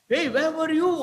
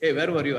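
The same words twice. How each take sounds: First: The voice sounds surprised and lively. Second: The voice sounds dull and flat. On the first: The speaker calls it right. "There is some surprise" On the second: The speaker calls it wrong. "It's so dull"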